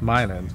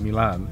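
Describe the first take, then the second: First: The name is pronounced the local Michigan way. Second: The name is pronounced like the Italian city. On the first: This is the town in Michigan. The speaker calls it right. "this is actually pronounced Milan" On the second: This is the city in Italy. The speaker calls it wrong. "not Milan"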